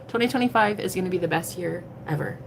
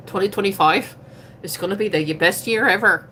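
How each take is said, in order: First: Said in the usual way. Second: Put-on playful Irish accent; accidental Irish accent. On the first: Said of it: "but let's go with it". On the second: Streamer declaring her year to come, in Irish accent. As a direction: slip into a jokey Irish lilt. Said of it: "where that accent came from".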